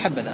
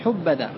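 First: The first vowel is a, as in habba. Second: The first vowel is u, as in hubba. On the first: The speaker calls it right. "تقول حب ذا" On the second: The speaker calls it wrong. "فلا تقول حب ذا"

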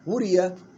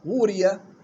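The two takes are said the same way.

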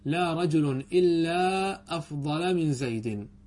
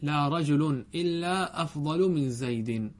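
First: Afdal ends with an 'a' vowel. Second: Afdal ends with a 'u' vowel. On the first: The speaker calls it wrong. "بنصب أفضل، هذا لا يجوز" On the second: The speaker calls it right. "بل يجب رفعه"

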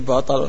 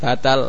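First: The vowels are rounded, o-like sounds. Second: The vowels are thin, open a sounds. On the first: "kalau jadi O semua jadi apa?" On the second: "Kalau jadi tipis semua jadi apa?"

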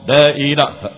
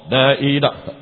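The two takes are said the same way.

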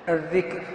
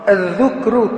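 First: The first syllable has the vowel 'i'. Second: The first syllable has the vowel 'u'. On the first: Mentioning with the tongue. "الذال مكسورة" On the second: Remembering in the heart. "الذال مضمومة"

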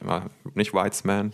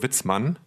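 First: The name does not sound like Witz plus Mann. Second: The name sounds like Witz plus Mann. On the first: The speaker calls it wrong. "Also nicht Whitesman, sorry" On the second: The speaker calls it right. "gesprochen Witzmann. Also wahrscheinlich nur wie Witz und Mann"

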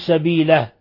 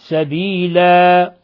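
First: The final vowel is clipped to a short vowel. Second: The final vowel is held for exactly two counts. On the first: The speaker calls it wrong. "ولا نقصر أكثر من حركتين فتصبح فتحة" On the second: The speaker calls it right. "وإنما سبيلا"

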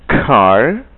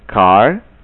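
First: The k bursts out with a puff of air. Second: The k is soft, without a puff of air. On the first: The speaker calls it right. "Saya ucapkan dengan perlahan-lahan" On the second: The speaker calls it wrong. "dengan cara yang salah"

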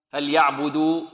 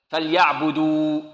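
The two takes are said the same way.

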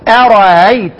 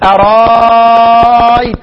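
First: The second hamza is softened toward a vowel. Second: The second hamza becomes a long alif. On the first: "بتمامه" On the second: "يزيد"

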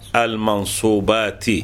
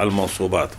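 First: The word ends with a short i vowel. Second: The word ends with a short u vowel. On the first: The word is the second part of a possessive phrase. "بالجر" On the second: The word stands in for the omitted predicate. "هكذا نقرأها بالرفع"

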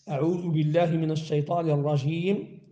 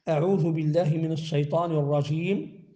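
No difference in how they are said.

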